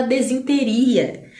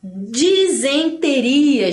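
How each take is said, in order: First: "desinteria" as de-zin-te-ria; common mispronunciation. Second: "Disenteria" drawn out as di-zen-te-ria; correct pronunciation. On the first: Teacher shows what everybody says, common mispronunciation. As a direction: swap the vowels: DE-ZIN in "desinteria". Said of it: "todo mundo fala desinteria". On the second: Teacher models disenteria for the class, correct pronunciation. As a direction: slowly sound DI then ZEN in "Disenteria". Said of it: "Essa aqui todo mundo fala". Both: Shown as a demonstration.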